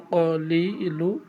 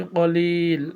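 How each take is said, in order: First: ক লি লু said as three separate syllables; broken syllables. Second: কলিল said as one joined word with no final vowel; reading form. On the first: Teacher showing viewers the broken-reading form ক লি লু, in separate syllables. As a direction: break ক লি লু apart, as in broken reading. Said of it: "যেভাবে আছে আপনি ওইভাবে উচ্চারণ করবেন". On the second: Teacher showing viewers the reading form কলিল, said as one word. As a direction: join it into কলিল, ending on the ল. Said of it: "reading পড়ার সময় এখানে উচ্চারণ করতে হবে কলিল". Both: Shown as a demonstration.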